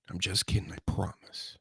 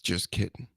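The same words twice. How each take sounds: First: Breathy whispered take-back, no voice; whispering. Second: Said in the usual way. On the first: Acted. Whispering to listeners that the slap threat was a joke. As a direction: whisper it like a sly aside.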